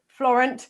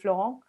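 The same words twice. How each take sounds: First: The name is said with an English accent. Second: The name is said with a French accent. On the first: "Florent is the English pronunciation" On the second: "I've put a French accent on that"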